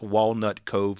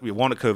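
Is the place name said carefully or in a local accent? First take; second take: careful; local accent. First: Each word of the name is clearly pronounced. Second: The name is run together into one word. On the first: "sorry, I have an accent. It's Walnut Cove" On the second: "Wanaco is how I'd pronounce it if I was just using my accent"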